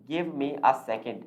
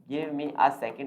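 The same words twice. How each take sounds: Both takes have the same delivery.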